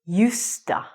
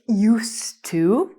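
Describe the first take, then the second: First: The words run together into one reduced word. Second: Both words are said fully and separately. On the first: "when I would say this normally or quickly, ... I would say justa" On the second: "I wouldn't say used to"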